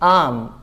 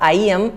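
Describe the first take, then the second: First: It is joined into one short syllable. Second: It is said as two separate words. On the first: The speaker calls it right. "आय को जोड़ा एम से, तो आम" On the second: The speaker calls it wrong. "It is not आई एम"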